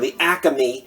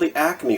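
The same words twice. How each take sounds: First: Acme is said the regional, local way. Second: Acme is said the standard, general way.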